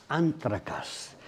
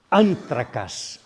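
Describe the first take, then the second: First: "anthracas" said slowly and softer, a gentle echo; Greek word echoed. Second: "Anthracas" said slowly and louder, each syllable set out; Greek word shown. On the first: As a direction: repeat "anthracas" slow and softer, letting it settle. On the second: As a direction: present "Anthracas" slow and firm as the Greek term. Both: Shown as a demonstration. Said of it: "en griego es".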